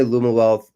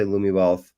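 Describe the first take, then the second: First: "Luma" with an uh ending, LOO-muh; Luma pronunciation. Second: "Lumi" with an ee ending, LOO-mee; Lumi pronunciation. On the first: Guest telling the host how people say the company name, "Luma" as LOO-muh. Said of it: "a lot of people say". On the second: Guest giving the other way to say the company name, "Lumi" as LOO-mee. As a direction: end "Lumi" on a clear ee. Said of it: "Some people say". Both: Shown as a demonstration.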